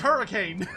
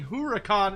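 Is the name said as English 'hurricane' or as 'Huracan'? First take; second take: hurricane; Huracan. First: It is said like the English word hurricane. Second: It is said as Huracan, unlike the English word. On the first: The name is a deliberate joke on the English word. The speaker calls it right. "His his name is Hurricane" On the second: The name is taken to be an exotic original form. The speaker calls it wrong. "oh, it's supposed to be Huracan"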